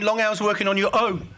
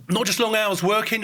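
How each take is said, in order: First: "own" stressed, falling at the end. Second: "long" leaned on, the rest flat; stress on long. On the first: Lecturer to audience, contrast landing on "own". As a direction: land on "own" in "on your own". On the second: Lecturer to audience, weight on "long". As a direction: hit "long" in "long hours working". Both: Real, not acted.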